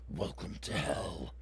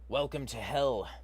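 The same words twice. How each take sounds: First: It is said in a deep growling voice. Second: It is said in a plain speaking voice.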